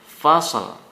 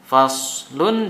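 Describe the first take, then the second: First: The word ends on a bare consonant. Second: The word ends with a vowel and n. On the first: The reader stops at this point. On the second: The reading continues without a stop.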